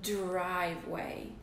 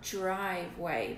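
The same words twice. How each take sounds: First: The word begins with a clear dr sound. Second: The word begins with a j sound. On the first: The speaker calls it right. "So I'm starting with a D" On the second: The speaker calls it wrong. "I'm not making a J sound. It's not driveway, but it almost sounds like it"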